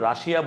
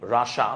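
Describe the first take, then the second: First: The word is said with three syllables. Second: The word is said with two syllables. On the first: This is how Bangladeshi speakers usually say it. "আমরা রাশিয়া বলি" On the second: This is how English speakers say it. "But রাশা বলে"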